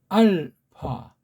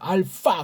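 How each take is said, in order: First: The p is soft, light and lifted upward. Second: The consonant is an f sound. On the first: The speaker calls it right. "소리를 가볍게 위로 하면서 나오는 부드러운 파" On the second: The speaker calls it wrong. "서양 애들이 이걸 F 사운드를 해서"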